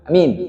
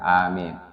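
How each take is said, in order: First: The first vowel is said short. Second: The first vowel is said long. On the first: A letter of the word is lost. The speaker calls it wrong. "Kalau nggak tahu hilang hurufnya" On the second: All letters of the word are kept. The speaker calls it right. "Harus dibaca panjang"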